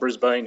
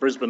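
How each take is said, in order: First: It is said the way outsiders say it. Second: It is said the way Australians say it. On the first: This is how outsiders say the name. The speaker calls it wrong. "not Brisbane here" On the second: This is how locals say the name. The speaker calls it right. "we call it Brisbane"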